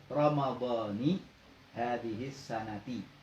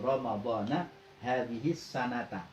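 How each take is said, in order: First: Ramadan ends with a final i vowel. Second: Ramadan ends with a final a vowel. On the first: "maka membacanya Ramadhani" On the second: "Boleh dibaca na"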